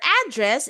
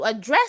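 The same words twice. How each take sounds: First: The stress is on the first syllable. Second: The stress is on the second syllable. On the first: It means where someone lives. "Your address is where you live" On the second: It means to talk about an issue. "To address something means to talk about an issue"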